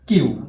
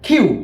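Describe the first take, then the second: First: The k is plain, with no puff of air. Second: The k is aspirated, with a puff of air. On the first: The speaker calls it wrong. "আমরা এটাকে বলি কিউ, আসলে এটা কিউ হবে না" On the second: The speaker calls it right. "খ উচ্চারণ করতে হবে আমাদের এখানে"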